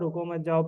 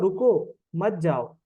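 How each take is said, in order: First: It is read straight through with no pause. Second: A pause comes right after the word ruko. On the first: "बस रुको मत जाओ रुको मत जाओ पढ़ेगा वो" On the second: "भाई रुक जा, मत जा"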